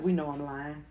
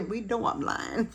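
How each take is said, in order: First: Said in the usual way. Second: Playful high repeat. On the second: Real, not acted.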